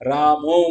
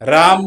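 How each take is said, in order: First: The name ends with an added o vowel. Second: The name ends without a final vowel. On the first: "रामो म्हणता येते" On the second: "राम असं म्हणता येत नाही"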